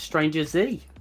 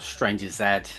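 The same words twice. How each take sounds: First: The final letter is said the American way. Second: The final letter is said the British way. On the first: "if you are stateside" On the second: "if you're in the U K"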